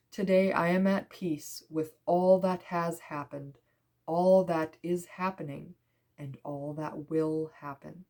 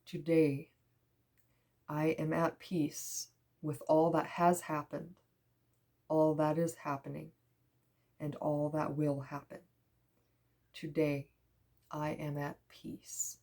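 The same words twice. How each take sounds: First: Measured, deliberate affirmation; affirmation reading. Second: Hushed, meditative reread with long pauses; softly spaced phrases, sinking into peace; soft affirmation reading. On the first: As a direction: read it out phrase by phrase. Reads affirmation from card. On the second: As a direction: let each phrase settle, fading to near whisper. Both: Real, not acted.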